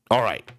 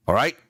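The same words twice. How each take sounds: First: "All right." falling, closing the matter; settled fall. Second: "All right?" rising as a question; questioning rise. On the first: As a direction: seal it and move on. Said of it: "confirming the deal". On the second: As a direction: check they got it. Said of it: "checking they understood". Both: Acted.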